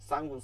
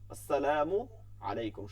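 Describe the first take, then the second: First: The greeting is clipped into one short word. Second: The greeting is said fully with every syllable. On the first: The speaker calls it wrong. "এটা কোনোভাবেই ঠিক না।" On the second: The speaker calls it right. "সুন্দর করে দিব"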